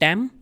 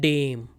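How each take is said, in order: First: The vowel sounds like the 'a' in 'cat'. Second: The vowel sounds like the 'ay' in 'day'. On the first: The speaker calls it wrong. "Many students pronounce this incorrectly. They say dam" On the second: The speaker calls it right. "this is dame"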